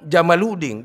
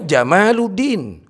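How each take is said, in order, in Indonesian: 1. Vokal setelah m dibaca pendek. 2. Vokal setelah m dibaca panjang. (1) "Tapi dia bilang Jamaluddin. Jamaluddin onta agama. Salah sih toh" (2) "Mestinya Jamaluddin, keindahan agama"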